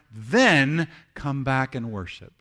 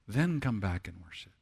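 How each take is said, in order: First: THEN drawn out and punched loud; forceful emphasis on THEN. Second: Softer, lower echo of the command; quiet repeat. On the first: Preacher urging people to reconcile before worship, forceful. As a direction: hit a long THEN, then pause before the rest. First, forceful take of repeated line. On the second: Preacher repeating the command for the congregation, quietly. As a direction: drop down and let it sink in. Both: Acted.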